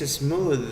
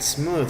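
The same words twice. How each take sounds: First: The final th is voiced, close to a d. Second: The final th is voiceless, like in think. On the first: The speaker calls it right. "Pero esta de aquí es smooth" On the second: The speaker calls it wrong. "si es con T H, esta T H fuera así de la chistosa, sería smooth"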